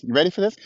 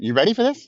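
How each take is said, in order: First: Said in the usual way. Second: Teasing buildup. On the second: Real, not acted.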